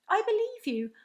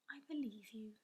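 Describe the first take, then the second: First: Louder, higher, urgent pleading; eager cry. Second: Hushed, almost whispered; softly. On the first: Sophie urgently assuring the giant, eager cry. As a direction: insist eagerly so he stays. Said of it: "Sophie cried". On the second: Sophie softly reassuring the offended giant, whispered. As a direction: whisper it gently to reassure him. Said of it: "she said softly". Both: A narrator's reading.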